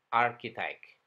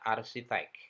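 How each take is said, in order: First: The second consonant is a k sound. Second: The second consonant is an s sound. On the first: The speaker calls it right. "Dengan K, bukan dengan C atau S" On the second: The speaker calls it wrong. "seperti ucapan bahasa Indonesia"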